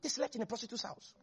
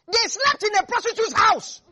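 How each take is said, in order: First: Much softer, quick murmured echo; hushed, quick repeat. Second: Loud shocked emphasis on slept; scandalized preacher shout; loud outraged emphasis. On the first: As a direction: drop it to an aside, fast. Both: Shown as a demonstration.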